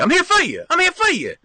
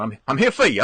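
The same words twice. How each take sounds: First: High, light falsetto I'm here for you; mock sweet high reassurance; sing-song falsetto. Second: Said in the usual way. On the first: Shown as a demonstration. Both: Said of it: "That's what I always tell people".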